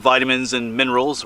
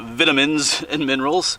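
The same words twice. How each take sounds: First: It is said in an American accent. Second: It is said in a British accent.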